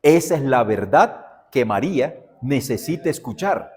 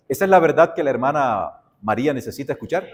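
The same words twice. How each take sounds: First: "Esa es la verdad que María necesita escuchar" said as a settled answer, weight on "Esa"; firm answer. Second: ¿Esa es la verdad que la hermana María necesita escuchar? asked as a doubting question, rising at the end. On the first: Pastor teaching students the right answer, stating it firmly. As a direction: state it as the final answer, stressing "Esa". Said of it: "lo que sí le puedo decir". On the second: Pastor quizzing his students, asking it as a doubting question. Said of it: "No, la verdad es". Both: Shown as a demonstration.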